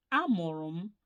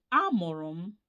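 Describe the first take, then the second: No difference in how they are said.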